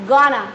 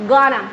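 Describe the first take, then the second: No difference in how they are said.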